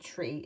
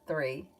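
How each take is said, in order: First: The word starts with a plain t sound. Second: The word starts with a th sound. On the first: This is how the grandfather said it. "My grandfather used to say tree instead of three" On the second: This is the usual way to say it. "instead of three"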